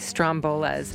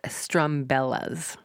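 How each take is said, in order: First: The name is said as Strombolas. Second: The name is said as Strumbellas. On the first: The speaker calls it wrong. "I always say Strombolas, but it's not Strombolas" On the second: The speaker calls it right. "it's Strumbellas"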